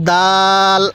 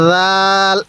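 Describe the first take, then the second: First: Hard, firm d opening দাল; firm pronunciation. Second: রাল opening on a soft voiced th; soft pronunciation. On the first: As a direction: strike the d of দাল, then hold the vowel. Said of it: "এই দালটাও আমরা শক্তভাবে উচ্চারণ করব". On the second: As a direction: ease into রাল with a gentle dh. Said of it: "রালটা আমরা নরম করে উচ্চারণ করব". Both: Shown as a demonstration.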